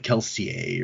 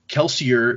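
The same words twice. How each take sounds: First: The name is said with a French-sounding pronunciation. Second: The name is said in a plain English way. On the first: This is how people inside the story world say it. "in universe they pronounce it more French" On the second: This is how the author himself says it. "the way that even he pronounces it"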